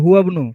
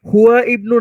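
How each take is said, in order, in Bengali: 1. 'bnu'-এর আগের স্বরবর্ণটি বাদ যায়, শব্দ দুটি যুক্ত হয়ে পড়ে। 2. 'bnu'-এর আগের স্বরবর্ণটি স্পষ্টভাবে উচ্চারিত হয়। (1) "আলিফটা উচ্চারিত হবে না" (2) "হুয়া ইবনু না পড়ে"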